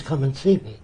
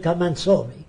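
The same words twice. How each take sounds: First: Said in the usual way. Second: Imitated broken English. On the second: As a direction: imitate a foreign speaker saying "saw" for "see". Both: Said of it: "Means come and see me".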